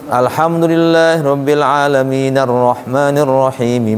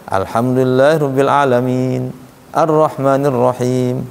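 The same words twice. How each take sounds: First: The verses run together without a pause. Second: There is a pause after each verse. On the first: Verse endings are joined, which is allowed in recitation rules. "Kalau kuat makan secara tajwid boleh. Dengan syarat ujung-ujungnya itu jangan dimatiin. Dilanjutin aja" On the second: Stopping at each verse end follows the Prophet's practice. "Rasul berhenti setiap ayat. ... Nabi berhenti begitu"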